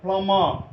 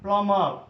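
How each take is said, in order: The two takes are said the same way.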